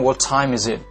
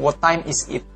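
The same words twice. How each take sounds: First: The t in time has a strong puff of air. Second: The t in time has no puff of air. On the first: The speaker calls it right. "pasti bilang" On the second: The speaker calls it wrong. "Bule nggak bilang"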